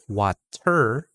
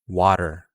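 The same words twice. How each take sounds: First: The T is a full, clear T sound. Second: The T is a quick flap like D. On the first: The speaker calls it wrong. "it's not water" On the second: The speaker calls it right. "very quick T sound"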